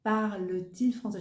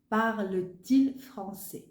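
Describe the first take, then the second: First: Said in the usual way. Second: Parle-t-il said slowly with a clear t sound; linking t. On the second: Shown as a demonstration. Teacher stressing the added T sound, slow and clear. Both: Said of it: "on doit ajouter un T".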